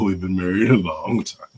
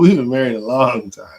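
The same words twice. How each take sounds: First: It is said in a weary, burdened tone. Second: It is said in a warm, happy tone. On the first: Being married feels like a burden. The speaker calls it wrong. "It's not like, oh" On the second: Being married feels good. The speaker calls it right. "It's a good feeling, though. ... It does matter in the intonation"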